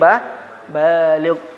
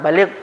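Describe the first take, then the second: First: The first vowel is long. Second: The first vowel is short. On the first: The word means having reached maturity. The speaker calls it right. "Benarnya adalah bah baligh" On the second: The word means eloquent. The speaker calls it wrong. "Bukan baligh"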